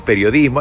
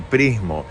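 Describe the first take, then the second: First: Every syllable of the word is clearly pronounced. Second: The middle syllables are dropped from the word. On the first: The speaker calls it right. "es ... periodismo" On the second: The speaker calls it wrong. "Dije ... prismo"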